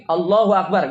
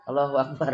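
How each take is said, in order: First: "Allahu Akbar" diserukan keras dan mantap; takbir lantang. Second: "Allahu Akbar" lirih, rendah, sambil tertawa; takbir mengantuk. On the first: Shown as a demonstration. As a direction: teriakkan takbir dengan semangat. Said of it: "Kalaupun takbir gini". (takbir penuh tenaga di depan jamaah) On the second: Retold or imitated. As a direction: takbir lemas seperti orang ngantuk. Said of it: "Udah ngantuk nih ya". (takbir pelan setengah tertawa)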